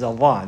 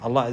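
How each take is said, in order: First: The word has careful Arabic sounds. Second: The word has anglicized, non-Arabic sounds. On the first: The speaker calls it right. "This is Allah" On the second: The speaker calls it wrong. "this is not the right way to say the name of Allah"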